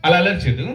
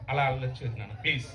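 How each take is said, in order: First: Firm telling-off at normal pitch; firm scolding. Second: Hushed, low coaxing plea; soft pleading. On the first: Performer tells the unruly partner to stop misbehaving, firmly scolding. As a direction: warn them firmly to behave. Repeats the warning after soft plea. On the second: Performer begs the unruly partner not to misbehave, softly pleading. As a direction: plead gently under your voice. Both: Acted.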